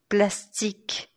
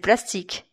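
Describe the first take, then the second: First: The word is said slowly and with exaggerated care. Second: The word is said quickly inside a flowing sentence. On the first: "Aqui eu forcei um pouco" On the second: "se eu falar mais rapidamente"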